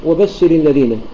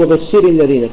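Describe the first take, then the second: First: وبشر الذين with stress kept on بش; stress as in pausing. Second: وبشر الذين stressed late, on شِرِ; wrong stress on RA. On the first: Teacher showing the correct link, وبشر stressed on بش. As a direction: join the words with a light ر in وبشر. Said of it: "كما تقول وبشر". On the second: Teacher showing what we don't say, stress on the ر of وبشر. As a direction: lean on the ر of وبشر before الذين. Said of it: "ما نقول وبشر الذين". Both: Shown as a demonstration.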